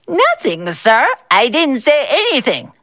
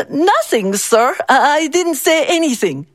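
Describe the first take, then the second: First: High, sneering copy of a stammer; mocking imitation. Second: Stammering. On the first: Boss mocking the clerk's excuse, in a sneering high voice. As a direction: mimic his excuse to belittle him. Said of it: "Mister Bao mocked". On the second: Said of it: "Mister Lee stammered". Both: A narrator's reading.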